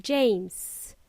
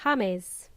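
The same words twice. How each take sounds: First: JAMES as one long English syllable, JAYMZ; drawn-out English JAMES; English pronunciation. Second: JAMES said the Spanish way, HA-mes; two-syllable Spanish JAMES; Spanish pronunciation. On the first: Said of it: "in English, this would be". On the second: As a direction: say JAMES as Spanish "HAH-mess". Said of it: "in English, this would be James". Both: Shown as a demonstration.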